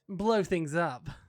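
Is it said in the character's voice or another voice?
character's voice. It is said in the character's own voice.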